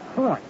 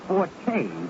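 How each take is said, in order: First: The word is said with one syllable. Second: The word is said with two syllables. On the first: This is the word meaning a strong point. The speaker calls it right. "Just like Fort Knox or Fort Dix" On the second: This is the musical term. The speaker calls it wrong. "when you use the word forte, it pertains to music"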